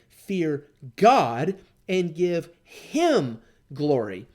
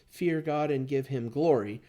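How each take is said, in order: First: The word God is stressed. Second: The word God is not stressed. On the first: The speaker calls it right. "I want to remember to put my emphasis on that" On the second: The speaker calls it wrong. "I don't think you read this as"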